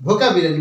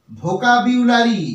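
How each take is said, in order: First: ভোকাবুলারি with a plain short "bi" in the middle; quick "bhokabilari" for ভোকাবুলারি, no "byu"; common mispronunciation. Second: ভোকাবুলারি drawn out, with a clear "byu" glide; slow, careful "bhokabyulari" for ভোকাবুলারি; correct pronunciation. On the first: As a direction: say ভোকাবুলারি as "bho-ka-bi-la-ri", without the "yu" glide. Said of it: "এটা কিন্তু সঠিক উচ্চারণ নয়". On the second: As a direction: say ভোকাবুলারি slowly as "bho-ka-byu-la-ri". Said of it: "এর সঠিক উচ্চারণ হবে". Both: Shown as a demonstration.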